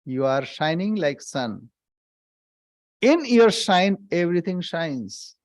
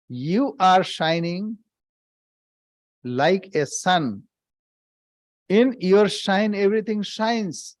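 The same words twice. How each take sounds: First: Said in the usual way. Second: Slower, each phrase weighed and spaced; slow deliberate repeat. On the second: Shown as a demonstration. Swami repeating the line for his listeners, slow and deliberate. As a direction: repeat it slowly so it sinks in. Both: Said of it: "Let me repeat".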